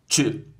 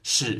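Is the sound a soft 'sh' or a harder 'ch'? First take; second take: ch; sh. First: The sound is a harder 'ch' with a t-like start. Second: The sound is a soft, smooth 'sh'. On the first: This is the Spanish sound. "Em espanhol é mais forte" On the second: This is the Portuguese sound. "Em português o som é suave"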